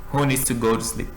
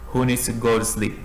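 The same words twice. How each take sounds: Both takes have the same delivery.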